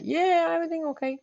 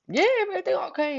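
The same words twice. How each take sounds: First: Higher, softer mock reply; a light, higher copy of her cover-up; imitating cousin. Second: Higher, quick mock answer; imitating boyfriend. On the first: Cousin answers, retold. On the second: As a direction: toss off a fake-casual yes, higher.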